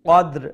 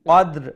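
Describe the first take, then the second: The two takes are said the same way.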